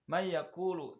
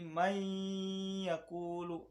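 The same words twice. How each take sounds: First: It runs straight through without a held nasal hum. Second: The merged sound is held with a nasal hum. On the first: The speaker calls it wrong. "jangan langsung" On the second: The speaker calls it right. "harus ada dengung"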